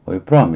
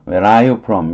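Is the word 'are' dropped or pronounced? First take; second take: dropped; pronounced. First: The word 'are' is dropped entirely. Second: Every word is said fully, including 'are'. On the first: "이렇게 쓰죠" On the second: "이렇게 친절하게 안 나옵니다"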